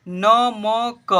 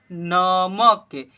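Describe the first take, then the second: First: "नमक" as "न, म, क", three slow separate letters; spelled letter by letter. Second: "नमक" joined as two syllables, न-मक; blended into one word. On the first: Teacher starting three-letter words, spelled out. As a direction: stretch each letter of "नमक" with its own vowel. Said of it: "इसे पढ़ेंगे नमक". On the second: Teacher answering what will we read, blended. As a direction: slowly run "नमक" together, ending on क. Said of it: "क्या पढ़ेंगे?". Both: Shown as a demonstration.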